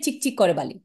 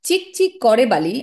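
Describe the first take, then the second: First: The voice drops to a final stop at the end. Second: The voice lingers at the end, sounding unfinished. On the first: The sentence is over here. The speaker calls it wrong. "আমি কিন্তু বলি নাই" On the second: More of the sentence follows after a breath. The speaker calls it right. "এখানে কমা আছে, তার মানে একটা রেশ থাকবে।"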